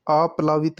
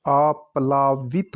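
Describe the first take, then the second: First: आप्लावित in an even run; wrong pronunciation. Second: आप्लावित split, with long "laa"; correct pronunciation. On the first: Teacher rejecting the form, आप्लावित in an even run. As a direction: say आप्लावित without splitting it. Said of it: "नहीं होता". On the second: Teacher correcting the word, आप्लावित with long laa. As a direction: say आप्लावित as "aap-laa-vit". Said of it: "ला आएगा". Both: Shown as a demonstration.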